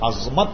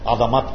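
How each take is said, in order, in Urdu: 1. z اور m کی آوازیں بغیر کسی مصوتے کے ملتی ہیں۔ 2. z اور m کی آوازوں کے درمیان ایک 'a' مصوتہ آتا ہے۔ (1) "یہ لفظ عظمت نہیں ہے" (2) "صحیح لفظ جو ہے وہ عظمت ہے، یہ را جو ہے مفتو ہے یعنی زبر کے ساتھ"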